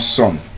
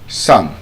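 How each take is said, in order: First: The vowel sounds like 'oh'. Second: The vowel sounds like 'uh'. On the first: The speaker calls it wrong. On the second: The speaker calls it right.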